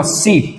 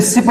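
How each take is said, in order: First: सीप with a long ee; long vowel. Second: सिप with a short i; short vowel. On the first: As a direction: stretch the ee in सीप. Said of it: "large या long sound में". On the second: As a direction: keep the i in सिप quick and brief. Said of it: "ये तो हो गया short sound". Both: Shown as a demonstration.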